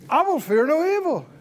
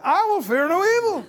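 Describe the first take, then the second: First: It is said in a plain, calm tone. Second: It is said in a sassy, defiant tone.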